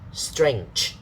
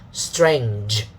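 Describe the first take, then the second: First: It has a voiceless ch sound. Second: It has a voiced j sound. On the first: The speaker calls it wrong. "don't say strange, not the C H sound" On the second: The speaker calls it right. "the voiced one, okay? Strange, okay, that will be better"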